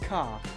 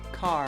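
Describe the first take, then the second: First: It is said in an English accent. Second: It is said in an American accent. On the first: "here in England, they'd say car" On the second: "So you would say car"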